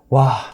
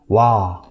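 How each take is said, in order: First: It sounds irritated and annoyed. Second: It sounds amazed and impressed. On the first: Losing again is frustrating. "계속 진 것에 대한 약간 짜증" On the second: The singing is impressive. "감탄이 섞인 그 약간 논란, 감, 너무 감탄해서 놀랐다"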